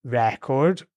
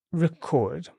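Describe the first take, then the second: First: "record" stressed on the first syllable, RE-cord; noun stress. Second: "record" stressed on the second syllable, re-CORD; verb stress. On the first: Teacher reading out the two words for the learner, "record" stressed on RE. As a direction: say "record" as the noun, weight on a clear short "re". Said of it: "this time the word is". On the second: Teacher reading out the two words for the learner, "record" stressed on CORD. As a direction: say "record" as the verb, light "ri" then full "CORD". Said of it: "long on the re and short on the second syllable".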